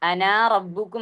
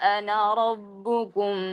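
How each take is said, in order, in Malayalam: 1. ana എന്നതിലെ അവസാന സ്വരം ദീർഘമായി വലിച്ചു പറയുന്നു. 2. ana എന്നതിലെ അവസാന സ്വരം ഹ്രസ്വമായി തന്നെ നിലനിർത്തുന്നു. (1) "എന്നല്ല" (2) "ആ അലിഫിനെ നമ്മൾ ഉച്ചരിക്കുകയില്ല"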